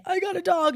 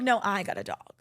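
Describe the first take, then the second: First: Put-on much higher childish announcement; high kid voice telling a parent; imitating a kid. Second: Said in the usual way. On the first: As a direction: squeak it like a proud little kid. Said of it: "when the kid". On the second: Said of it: "It's like a parent".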